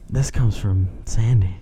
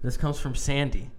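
First: It is said in a put-on sultry voice. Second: It is said in an ordinary speaking voice.

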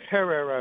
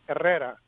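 First: The word begins with an audible H sound. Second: The word begins with no H sound.

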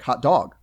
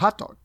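First: The stress falls on the second word. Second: The stress falls on the first word. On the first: It is a new phrase, not yet a fixed term. "You emphasize the second one" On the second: It is an established compound term. "the emphasis to the first syllable"

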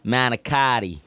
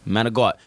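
First: All syllables are said, ending in a clear -tti. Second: It is clipped, with a g sound and no final vowel. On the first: This is how most Americans say it. "American is going to say manicotti like that" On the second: This is the local New Jersey slang form. "This is Jersey"

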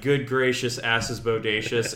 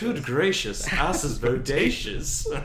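First: It is read in a plain, straight voice. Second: It is read in an imitated character voice. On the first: "in a straight voice" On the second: "I'm wishing I could hear Tony Head say that"

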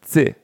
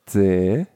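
First: The pitch falls steadily through the syllable. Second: The pitch dips down and then rises. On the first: It means the number four. "the first one, the emphasis goes down on the word" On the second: It means death. "the other one is kind of like a loop. It goes down and then it goes up"

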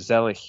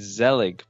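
First: The name is said with a German pronunciation. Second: The name is said with an English pronunciation. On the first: The speaker calls it right. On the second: The speaker calls it wrong.

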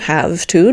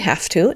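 First: Both words are said fully and distinctly. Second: The words blend together in a reduced form. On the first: The speaker calls it right. "instead of" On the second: The speaker calls it wrong. "I say"

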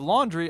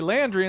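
First: The first vowel is an open 'ah' sound. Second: The first vowel is a flat 'a' sound. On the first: It is the ordinary way to say it. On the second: It echoes a cartoon's joke pronunciation.

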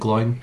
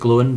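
First: The name is pronounced like Gloin. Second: The name is pronounced like Glowin. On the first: This is a habitual personal pronunciation. "but I always pronounce it Gloin" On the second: This is the intended pronunciation. "I think you're meant to pronounce it Glowin"

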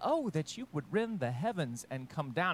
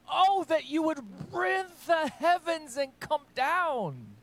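First: It is read flatly, like a computer voice. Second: It is read with strong, aching emotion.

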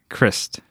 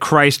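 First: The name does not sound like Jesus' title. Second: The name sounds like Jesus' title. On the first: The speaker calls it right. "this is the correct way to say it" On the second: The speaker calls it wrong. "We said Christ last time. ... It's not like Jesus"

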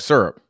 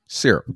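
First: It is said the Georgia way. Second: It is said the California way.

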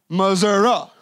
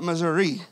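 First: It is said with a local country pronunciation. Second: It is said with a standard, non-local pronunciation. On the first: This is how people really from the state say it. "if you're really from Missouri, you say it like Missouri" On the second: The speaker is away from that family. "not Missouri"

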